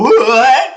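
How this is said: It is said in a high, light head voice. The speaker calls it right. "always gonna be done in your head voice"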